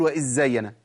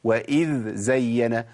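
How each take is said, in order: First: وإذ زين with a doubled z as a student says it; تقليد خطأ الإدغام; imitated error. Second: Slow وإذ زين, dhal and zay apart; النطق الصحيح ببطء; correct slow. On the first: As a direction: mimic the merged zz in زين. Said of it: "أسمع حد بيقول". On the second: Shown as a demonstration. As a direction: model وإذ زين carefully. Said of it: "إحنا قلنا الصواب إيه".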